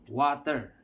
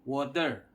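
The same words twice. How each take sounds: First: "water" with an open ah, WAH-ter; wrong pronunciation. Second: "water" with a rounded o and clear T; correct pronunciation. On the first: Teacher mimicking the other country's wrong way, "water" as WAH-ter. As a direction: say "water" with a broad a in the first syllable. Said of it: "which is wrong". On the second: Teacher showing how we pronounce it, correct "water" with clear T. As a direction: say "water" as WOH-ter, crisp T. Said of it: "the right pronunciation is water". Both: Shown as a demonstration.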